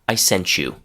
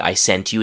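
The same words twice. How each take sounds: First: Sent blends with you into 'sench you'. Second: Sent ends in a clear separate T sound. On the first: "but you'll also hear" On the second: "sometimes you'll hear people say"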